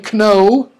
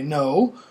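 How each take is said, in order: First: The initial K sound is pronounced. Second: The initial K sound is silent. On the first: The speaker calls it wrong. "We don't say kno" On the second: The speaker calls it right. "we say no"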